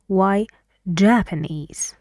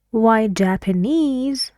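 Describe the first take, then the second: First: "Japanese" with the stress on "JAP-"; stress on first syllable. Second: "Japanese" with the stress on the final "-NESE"; questioning "Japanese", weight on its long final syllable; stress on last syllable. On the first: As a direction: say JAP-anese, falling away after the first syllable. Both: Shown as a demonstration. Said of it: "on the first syllable".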